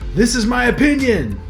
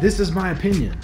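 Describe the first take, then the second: First: The words are said loudly, with much force. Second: The words are said at a calm, normal volume. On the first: The person repeats their view more aggressively after being told they are wrong. "They say it louder and more with more force" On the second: A person states their view for the first time. "Like they say their opinion"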